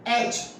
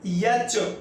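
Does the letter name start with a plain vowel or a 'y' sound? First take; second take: plain vowel; y sound. First: It begins directly with a plain vowel. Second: It begins with a 'y' sound before the vowel. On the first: The speaker calls it right. "इसका सही pronunciation" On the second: The speaker calls it wrong. "य और च"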